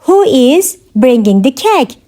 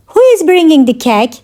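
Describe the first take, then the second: First: Measured language-lesson delivery; careful teaching repeat. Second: Said in the usual way. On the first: Shown as a demonstration. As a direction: pause after "Who is". Teacher repeats question for learners.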